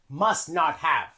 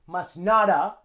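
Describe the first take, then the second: First: The word have is said fully and clearly. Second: The word have is reduced to a short uh.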